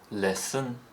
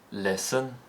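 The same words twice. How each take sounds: First: The pitch steps up on the word. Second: The pitch steps up on the word.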